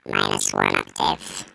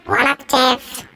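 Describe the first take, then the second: First: Pitched down one octave; deep voice effect. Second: Pitched up one octave; high voice effect. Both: Shown as a demonstration. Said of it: "we got various settings".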